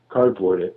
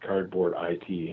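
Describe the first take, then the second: First: The last part is said as one word. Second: The last part is spelled out as letters. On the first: The speaker calls it right. "you said it correctly" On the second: The speaker calls it wrong. "a lot of people ask me if it's Cardboard I T"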